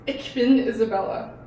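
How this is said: It is said in a harsh, strong Berlin accent.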